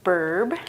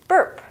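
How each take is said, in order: First: "burb" ending in a voiced b; wrong pronunciation. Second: "burp" short, with a popped p; correct pronunciation. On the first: Teacher corrects a slip, "burb" with final b sound. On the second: Teacher gives the right word, "burp" with final p sound. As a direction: say "burp" quick and higher, crisp final p. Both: Shown as a demonstration. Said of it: "it's not burb".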